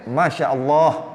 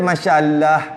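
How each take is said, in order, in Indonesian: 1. L-nya tebal dan gelap. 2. L-nya tipis dan terang. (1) "Kita boleh" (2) "Dia masya-Allah, masya-Allah gitu"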